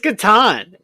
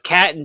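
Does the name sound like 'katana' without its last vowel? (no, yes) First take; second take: yes; no. First: It sounds like 'katana' without the final vowel. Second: It does not sound like 'katana' shortened. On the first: The speaker calls it right. "It is Catan" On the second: The speaker calls it wrong. "my son says Caton just to tick me off"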